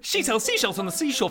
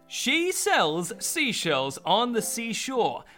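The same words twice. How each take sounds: First: It is said more quickly. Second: It is said at a normal speed.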